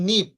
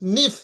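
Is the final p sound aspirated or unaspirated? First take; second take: unaspirated; aspirated. First: The final p has no puff of air. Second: The final p has a breathy puff of air. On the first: The speaker calls it right. "Non স্প্রাইডেড sound হবে পি, মানে প, যেমন নিপ" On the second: The speaker calls it wrong. "আমি যদি অ্যাসপ্রাইডে উচ্চারণ করি, তাহলে এটার উচ্চারণ করব নিফ"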